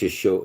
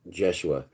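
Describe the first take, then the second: First: The name begins with a Y sound. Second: The name begins with a J sound. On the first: The speaker calls it right. "It's Yeshua. That's Yeshua is what's Aramaic" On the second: The speaker calls it wrong. "you can call him Jeshua if you want"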